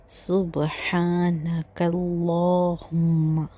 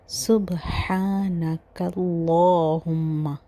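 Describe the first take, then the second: No difference in how they are said.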